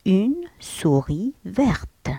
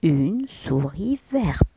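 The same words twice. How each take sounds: First: Une souris verte, every sound slow; teacher modelling; slow careful French. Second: Verte slow and falling; teacher repeating; slow careful French. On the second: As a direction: repeat Une souris verte slowly. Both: Shown as a demonstration. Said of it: "في المؤنث نزيد le E".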